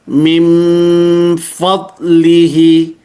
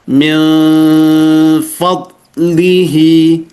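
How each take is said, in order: First: The lips close fully, giving a full m sound. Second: The lips stay slightly open, leaving a small gap. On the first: The speaker calls it wrong. "mengatupkan secara sempurna. Jadi dibaca gini" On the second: The speaker calls it right. "Tapi dia membuka sedikit"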